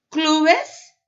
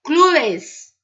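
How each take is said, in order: First: "clubes" with a clear E, klu-bes; "clubes" com o E bem marcado; Spanish clubes. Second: "clubes" swallowed to klubs, no E; "clubes" quase sem o E; clubs without the E. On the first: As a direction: say "clubes" spelling out the final -bes. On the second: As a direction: say "clubes" almost as one syllable, clubs. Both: Shown as a demonstration. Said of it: "Clubes ou clubs".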